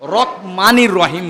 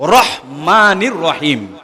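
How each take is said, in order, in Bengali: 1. মাঝের ব্যঞ্জনটি k-এর মতো ধ্বনি। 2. মাঝের ব্যঞ্জনটি h ধ্বনি। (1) "ক লাগায়" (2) "র হ ময়কার মা"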